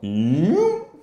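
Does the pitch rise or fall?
rise. The pitch rises.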